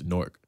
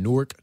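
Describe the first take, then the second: First: The name is said in the plain local pronunciation. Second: The name is said in a mocking outsider pronunciation. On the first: It is how locals say the name. The speaker calls it right. "It's Newark" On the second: It mocks people who say the name wrongly. The speaker calls it wrong. "that's not the right way to say it. I'm actually making fun of people who actually say it"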